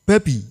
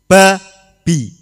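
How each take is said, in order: First: The syllables are read quickly and run together. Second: The syllables are read firmly at a moderate pace. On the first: The speaker calls it wrong. "Nek cepat mungkin" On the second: The speaker calls it right. "bacanya yang tegas, sekali lagi juga jangan terlalu cepat, jangan terlalu pelan"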